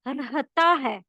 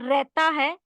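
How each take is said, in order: First: The middle h sound is clearly pronounced. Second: The middle h sound is dropped. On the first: The speaker calls it right. "It is" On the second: The speaker calls it wrong. "Not"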